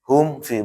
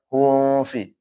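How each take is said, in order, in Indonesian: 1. Bunyi m langsung menyambung ke f tanpa ditahan. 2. Bunyi m ditahan dengan dengung sengau sebelum f. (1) "Makanya langsung dibaca"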